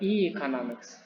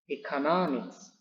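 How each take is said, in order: First: The first syllable is as strong as the main stress. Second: The first syllable is weaker than the main stress. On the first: The speaker calls it wrong. "Jadi bukan economics" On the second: The speaker calls it right. "tetap ditekan, tapi tidak melebihi daripada primary stressing"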